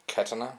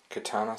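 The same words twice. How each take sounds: First: Katana said KAT-uh-na, stressed at the front; alternative pronunciation. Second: Katana said ka-TAH-na, long middle vowel; alternative pronunciation. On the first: Reviewer offering viewers another way, katana as KAT-uh-na. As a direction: say katana with a short, stressed first syllable. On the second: Reviewer naming the swords for viewers, katana as ka-TAH-na. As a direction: say katana with the stress on the middle syllable. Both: Shown as a demonstration. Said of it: "whatever way you want to pronounce it".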